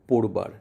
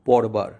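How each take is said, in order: First: The first vowel is a closed 'o' sound. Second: The first vowel is an open 'aw' sound. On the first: The speaker calls it right. "এই নিয়মে উচ্চারণ হয়েছে পোড়বার" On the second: The speaker calls it wrong. "বর্তমান বানানের লিখিত রূপ অনুযায়ী উচ্চারণ হয় পরবার"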